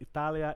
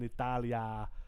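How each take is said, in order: First: The final vowel is short. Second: The final vowel is lengthened. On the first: The word stands on its own. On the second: It means in Italy.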